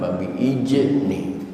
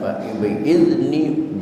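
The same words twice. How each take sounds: First: The consonant in the word is a j sound. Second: The consonant in the word is a z sound. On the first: The speaker calls it wrong. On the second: The speaker calls it right. "baca za"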